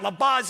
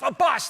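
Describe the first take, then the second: First: The name ends with a buzzing z sound. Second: The name ends with a hissing s sound. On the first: The speaker calls it wrong. "I know it's not LaBuz" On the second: The speaker calls it right. "it's LaBus"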